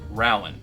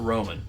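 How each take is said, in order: First: It is said the local Kentucky way. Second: It is said the general non-local way. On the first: The speaker calls it right. "pronounced, if you're in Kentucky, Rowan" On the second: The speaker calls it wrong. "not Rowan"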